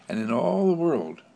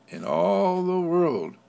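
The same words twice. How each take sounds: First: Said in the usual way. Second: In all the world, higher, louder and slow; swelling preacher emphasis; emphatic repeat. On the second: Acted. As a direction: lift and stretch all the world. Repeats phrase, second more emphatic.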